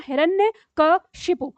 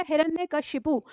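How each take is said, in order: First: हिरण्यकशिपु split slowly into हिरण्य, कश, इपु; word in three parts. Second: Said in the usual way. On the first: Shown as a demonstration. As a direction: spell out हिरण्यकशिपु syllable by syllable, very slow. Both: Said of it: "तीन टुकड़ों में इसको याद रखना".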